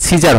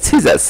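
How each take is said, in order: First: "সিজার" closed with r; rejected pronunciation. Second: "সিজাস" closed with s; correct pronunciation. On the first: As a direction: say "সিজার" with r where the s belongs. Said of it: "সিজার হবে না". ("সিজার", স-এর বদলে শেষে র) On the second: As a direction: say "সিজাস" with s in place of final r. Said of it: "হবে হচ্ছে সিজাস". ("সিজাস", শেষে র নয়, স) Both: Shown as a demonstration.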